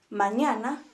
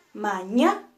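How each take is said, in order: First: Said in the usual way. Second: "mañana" split ma-ña-na, "ña" stressed; syllable by syllable. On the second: Shown as a demonstration. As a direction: break "mañana" into beats, punching "ña". ("mañana" en sílabas, ma-ña-na, con fuerza en "ña") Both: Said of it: "las vamos a dividir en sus partes".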